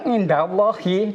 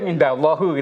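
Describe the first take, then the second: First: The phrase ends with an 'i' vowel. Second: The phrase ends with a 'u' vowel. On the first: The speaker calls it right. "yang benar indallahi" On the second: The speaker calls it wrong. "tidak boleh indallahu"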